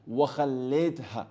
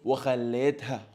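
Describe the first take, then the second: The two takes are said the same way.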